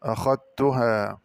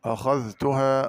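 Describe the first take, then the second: First: أخذتها with dh absorbed into a double t; held tt, no dh in أخذتها; merged dhal. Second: أخذتها with dh sounded before t; separate dhal. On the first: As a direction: say أخذتها slowly as "akhat-tuhaa". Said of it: "بإدغام الذال في التاء". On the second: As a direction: say أخذتها as "akhadh-tuhaa". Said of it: "قرأ بإدغام الذال". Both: Shown as a demonstration.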